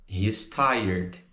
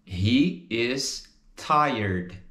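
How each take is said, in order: First: "He is" merged into "he's" before tired; joined up. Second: HE, IS, TIRED, each slow and apart; separated words, slow. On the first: Teacher repeats for students, "He is" joined as "he's". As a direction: run "He is tired" together, lower in pitch. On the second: Teacher models the full form, "He is tired" slowly separated. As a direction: say "He is tired" word by word with gaps. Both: Shown as a demonstration. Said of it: "He is junta e fica He's".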